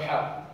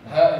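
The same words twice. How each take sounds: First: "ha" with the proper Arabic h; correct h. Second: "Ha" with the wrong kind of h; mispronounced h. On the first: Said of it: "instead of Alhamdu". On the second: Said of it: "will mispronounce it as". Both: Shown as a demonstration.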